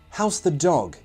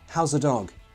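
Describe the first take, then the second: First: The TH sound of 'the' is fully pronounced. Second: The TH is dropped, leaving a weak schwa.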